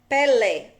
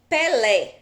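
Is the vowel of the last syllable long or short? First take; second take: long; long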